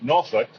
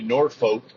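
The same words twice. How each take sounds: First: It is said the way Virginia locals say it. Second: It is said the way movies and TV say it. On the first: The speaker calls it right. "If you're from Virginia, it's pronounced Norfolk" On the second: The speaker calls it wrong. "on movies and T V shows, they'll say Norfolk, which is absolutely incorrect"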